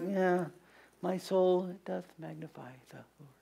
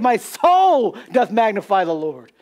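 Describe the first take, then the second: First: It is said flatly, without enthusiasm. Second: It is said with excited enthusiasm.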